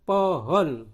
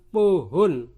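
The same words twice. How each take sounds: First: "pohon" as paw-hawn; "pohon" with the vowel of "thought"; correct open O. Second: "pohon" misread almost as poo-hoon; "pohon" with over-rounded vowels; wrong close O. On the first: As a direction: say "pohon" in two syllables with open o. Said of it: "tulisannya dibaca pohon". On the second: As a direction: say "pohon" slow and loud with tight, closed o. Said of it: "bukan pohon". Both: Shown as a demonstration.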